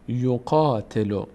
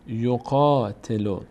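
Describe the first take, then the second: First: The vowel after q is drawn out long. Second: The same.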